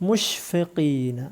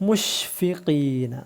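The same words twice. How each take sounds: The two takes are said the same way.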